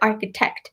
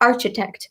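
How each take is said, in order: First: The 'ch' is said as a 'k' sound. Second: The 'ch' is said as a 'ch' sound. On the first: The speaker calls it right. "C H makes a K sound" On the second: The speaker calls it wrong. "not architect"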